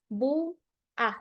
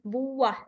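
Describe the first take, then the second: First: A break separates the two syllables. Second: The two syllables run together without a break.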